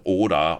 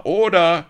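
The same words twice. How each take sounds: First: Loud call for order; crowd call. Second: High, very loud yell; louder shout. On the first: Pirates calling for order, loud. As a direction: shout it over the din. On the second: Pirates yelling for order, high and very loud. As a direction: bellow it even harder. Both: A narrator's reading. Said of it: "Cries of".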